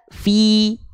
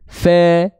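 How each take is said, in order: First: The vowel is a close i sound. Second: The vowel is an open e sound. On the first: The speaker calls it right. "kalau diangkat" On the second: The speaker calls it wrong. "Kalau nggak diangkat tengah lidahnya bunyinya begini"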